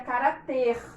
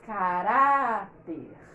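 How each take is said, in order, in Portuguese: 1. A sílaba tônica é a última. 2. A sílaba tônica é a do meio. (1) "Se essa palavra não tivesse acento, a gente diria" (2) "para que essa sílaba seja mais forte do que a que tem o R"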